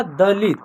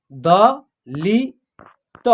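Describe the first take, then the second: First: Said in the usual way. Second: "द लि त" very slow, in three separate sounds; long gaps between "द", "लि", "त"; spelled out by syllable. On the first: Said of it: "क्या उच्चारण होगा". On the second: Shown as a demonstration. Teacher sounding out letters for learners, "द लि त" piece by piece. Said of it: "तीनों को जोड़ेंगे तो एक शब्द".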